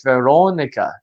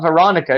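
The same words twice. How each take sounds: First: "Veronica" with a round "oh" in the second syllable; "Veronica" the Portuguese way, long "oh"; Portuguese pronunciation. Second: "Veronica" with an American "ah" in the second syllable; "Veronica" the American way, stressed "ah"; English pronunciation. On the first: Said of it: "it's not Veronica, it's Veronica". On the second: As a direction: say "Veronica" with an open, unrounded "ah". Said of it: "my Portuguese teacher said, "No, it's not". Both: Retold or imitated.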